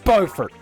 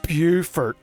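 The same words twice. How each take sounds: First: It uses the other, non-French-based pronunciation. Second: It uses the French-based South Carolina pronunciation. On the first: This is how the speaker's own state says the name. The speaker calls it right. "Everyone knows it's Beaufort" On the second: This is how another state says the name. The speaker calls it wrong. "it's going to make me vomit to say it"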